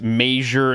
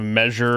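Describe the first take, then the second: First: It uses a Nebraska regional pronunciation. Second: It uses a standard general pronunciation.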